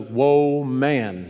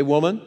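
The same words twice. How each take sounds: First: "Whoa, man" split into two exclaimed words; woman as "whoa, man". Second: Said in the usual way. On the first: Shown as a demonstration. Preacher explains what woman means, "Whoa, man" as two words. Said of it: "That's what it means". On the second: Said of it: "Say it with me".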